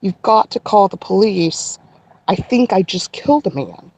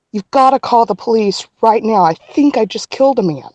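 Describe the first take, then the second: First: Measured retelling of an urgent plea; calmed down, deliberate. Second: Urgent retelling of a panicked plea; retold panic. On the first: Retold or imitated. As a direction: hold the panic back and say it carefully. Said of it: "got myself to say it slowly enough". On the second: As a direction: relive the frantic plea, only mildly hysterical. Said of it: "clearly I'm hysterical".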